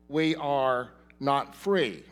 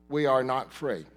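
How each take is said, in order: First: Slow emphasis. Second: Said in the usual way. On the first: Shown as a demonstration.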